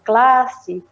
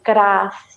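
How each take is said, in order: First: The cluster is said with an l sound. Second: The cluster is said with an r sound. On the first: It is the more accepted standard form. "em vez de classe" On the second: It is a dialect variant often treated as an error. "dizer classe em vez de"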